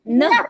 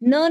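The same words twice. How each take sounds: First: The syllable is said with extra stress. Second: The syllable is said plainly, without extra stress. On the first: The speaker calls it right. "हमें क्या बोलना है?" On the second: The speaker calls it wrong. "न नहीं बोलना है"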